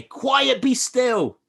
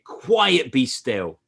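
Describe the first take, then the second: First: High, loud command to the waves; raised voice. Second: Louder command. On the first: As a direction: call it out with full authority. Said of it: "raise your voice and say". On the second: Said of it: "And say". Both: Shown as a demonstration.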